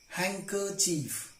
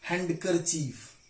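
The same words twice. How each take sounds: First: The d sound is silent. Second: The d sound is pronounced. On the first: The speaker calls it right. "tricky examples of the silent letter D" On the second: The speaker calls it wrong. "not handkerchief"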